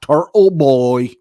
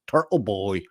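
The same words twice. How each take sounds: First: The t consonants in Turtle are dropped. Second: The t consonants in Turtle are clearly pronounced. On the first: The speaker calls it wrong. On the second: The speaker calls it right.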